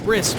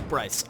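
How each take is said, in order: First: The name is said sounding like 'Brisk'. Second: The name is said sounding like 'Bryce'. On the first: The speaker calls it wrong. "some people mispronounce it as Brisk" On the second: The speaker calls it right. "but it's Bryce"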